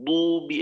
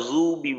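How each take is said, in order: First: দুবি starting on a heavy d; dad as d. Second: জুবি starting on z; wrong z for dad. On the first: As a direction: say দুবি with d, not z. (দুবি-তে দদের স্পষ্ট উচ্চারণ) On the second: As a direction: say জুবি with z in place of d. (জুবি-তে দদের জায়গায় জ) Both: Shown as a demonstration. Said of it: "এইখানে তারা জুবি বলে না".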